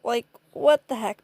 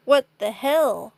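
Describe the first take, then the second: First: Said in the usual way. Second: "What the hell" slower and louder; stronger emphasis. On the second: Shown as a demonstration. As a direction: punch "hell" harder. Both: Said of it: "this doesn't deserve a heck".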